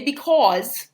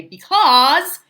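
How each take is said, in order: First: "because" as a New Jersey "be-cawz"; Jersey accent. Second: "because" with an open ah, "be-cahz"; standard vowel. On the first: Teacher showing what to avoid, Jersey "be-cawz". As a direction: give "because" the rounded Jersey aw. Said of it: "I didn't say because". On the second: Teacher correcting own Jersey speech, "because" with open ah. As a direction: stretch "because" without the Jersey aw. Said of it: "not to pronounce things that way". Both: Shown as a demonstration.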